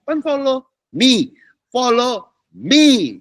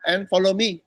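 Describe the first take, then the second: First: Preacher drags out follow me, slow and rising; drawn-out follow me. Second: Said in the usual way. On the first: Shown as a demonstration. Preacher calling the church to follow, slow drawn-out. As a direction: follow me stretched slow and high, me held long.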